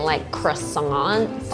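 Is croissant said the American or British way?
American. Croissant is said the American way. The speaker calls it wrong. "in the U S, they're known for saying"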